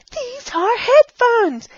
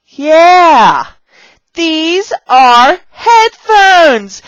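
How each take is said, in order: First: High playful echo. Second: High, loud, very slow words; exaggerated teacher enthusiasm. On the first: Teacher repeating the headphones line, high playful voice. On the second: Teacher showing beginners headphones, loud slow excited voice. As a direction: belt out each word for beginners. Demonstrating a prop lesson for beginners. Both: Shown as a demonstration.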